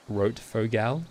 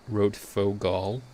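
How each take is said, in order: First: The name is said in a broad Australian accent. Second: The name is said in an American accent. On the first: "if I say it in the most Australian way possible" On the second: "if I say it in an American accent"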